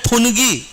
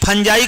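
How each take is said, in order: First: It is said fun-gee, with a hard g sound. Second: It is said fan-jai, ending in an 'eye' sound. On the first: The speaker calls it wrong. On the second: The speaker calls it right.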